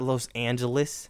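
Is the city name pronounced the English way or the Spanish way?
English. The name is said with an English pronunciation. The speaker calls it wrong.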